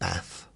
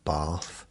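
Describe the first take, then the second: First: It is said with a regional accent. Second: It is said without a regional accent. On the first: The speaker calls it wrong. "not bath" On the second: The speaker calls it right. "how to pronounce the correct words, like bath"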